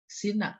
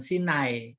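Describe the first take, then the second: First: The name ends in a plain 'a' vowel. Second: The name ends in an 'ai' diphthong. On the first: The speaker calls it right. "Sina, bukan Sinai" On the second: The speaker calls it wrong. "bukan Sinai"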